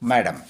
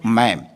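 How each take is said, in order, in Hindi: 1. यह शब्द पूरा दो अक्षरों में बोला जाता है। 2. d छूट जाता है, तो एक ही अक्षर बचता है।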